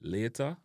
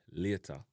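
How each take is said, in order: First: LATER as "lay-der", final R sounded; American-style "lay-der"; North American pronunciation. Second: LATER as "lyeh-ta", no final R; Jamaican pronunciation. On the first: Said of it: "in North America". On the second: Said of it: "in a Jamaican". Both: Shown as a demonstration.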